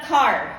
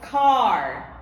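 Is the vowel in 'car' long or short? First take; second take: short; long. First: The vowel in the word is short. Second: The vowel in the word is long. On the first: The speaker calls it wrong. "It's not it's not car. Wrong" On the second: The speaker calls it right. "it will be long A"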